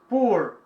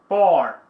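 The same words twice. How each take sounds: First: It is said with an American accent. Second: It is said with a British accent. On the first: "O inglês americano costuma pronunciar poor" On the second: "o inglês britânico, a pronúncia é poor"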